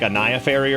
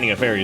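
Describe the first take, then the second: First: The name is said as 'a Naya'. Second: The name is said as 'Ania'. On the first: The speaker calls it right. "It's supposed to be like a Naya Fairy" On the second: The speaker calls it wrong. "I still say Ania Fairy is wrong"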